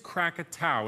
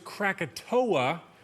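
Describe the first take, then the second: First: The name ends with an 'ow' sound. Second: The name ends with an 'oh-ah' sound. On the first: This is the correct form of the name. The speaker calls it right. "the correct pronunciation is Krakatau" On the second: This is the commonly known form of the name. The speaker calls it wrong. "most people know it as Krakatoa"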